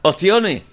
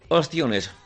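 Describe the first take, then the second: First: The word is said in an Andalusian accent. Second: The word is said in a non-Andalusian accent. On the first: "¿cómo lo dices tú?" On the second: "Lo digo yo como lo dices tú"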